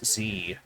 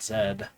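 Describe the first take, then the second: First: The letter is said as zee. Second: The letter is said as zed. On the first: This is the American way of saying it. "we just say Big Bold Z as Z" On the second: This is the way used outside America. "not Zed"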